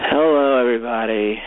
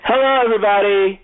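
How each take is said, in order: First: It is said in a tired, flat voice. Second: It is said in a lively, energetic voice.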